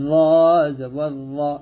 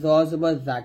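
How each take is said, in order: First: The syllable is heavy with a dark vowel. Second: The syllable is light with an open 'aa' vowel. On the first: The speaker calls it right. "মোটা করে" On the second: The speaker calls it wrong. "কিন্তু না"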